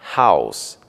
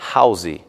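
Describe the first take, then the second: First: The word ends on its final consonant sound. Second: An extra 'ee' vowel follows the final consonant. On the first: The speaker calls it right. "Não se pronuncia o som do I no final" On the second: The speaker calls it wrong. "e não"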